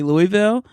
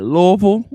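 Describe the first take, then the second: First: It is said in an outsider's pronunciation. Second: It is said in the locals' pronunciation. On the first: This is how a visitor would say it. "I would say Louisville" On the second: This is how residents say it. "I love how they say it"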